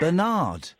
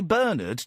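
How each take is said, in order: First: The name is said the American way. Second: The name is said the British way. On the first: The speaker calls it wrong. "Do you know what Americans say instead of Bernard?" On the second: The speaker calls it right. "the Americans don't say Bernard"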